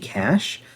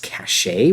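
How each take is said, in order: First: The word has one syllable, like 'cash'. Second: The word has two syllables, ending in 'shay'. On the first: The speaker calls it right. "when it should just be" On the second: The speaker calls it wrong. "I pronounce the word C A C H E as cachet"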